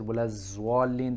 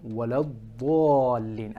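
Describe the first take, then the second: First: The second word begins with a z sound. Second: The second word begins with an emphatic d sound.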